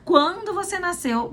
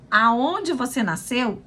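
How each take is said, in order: First: Quando said high, the rest falling; teacher contrasting question words; stress on Quando. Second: Aonde lifted first, rest of the line slow; teacher contrasting question words; stress on Aonde. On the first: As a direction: start high on Quando and fall away. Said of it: "é diferente de eu perguntar". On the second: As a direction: lean on Aonde, then let it settle. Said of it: "Se eu pergunto". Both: Shown as a demonstration.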